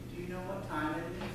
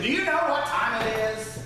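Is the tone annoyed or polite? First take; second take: polite; annoyed. First: It is said in a polite, courteous tone. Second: It is said with an annoyed, frustrated edge. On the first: The asker is simply requesting the time. "Sometimes in a polite tone of voice" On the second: The asker is scolding someone for being late. "sometimes with an edge of annoyance or frustration"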